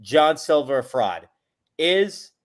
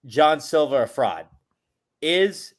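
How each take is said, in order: Both takes have the same delivery.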